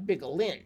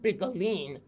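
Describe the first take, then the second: First: The name is pronounced in an English way. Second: The name is pronounced in an Italian way. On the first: The speaker calls it wrong. "not Bigolin" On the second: The speaker calls it right. "the name is actually pronounced Bigolin"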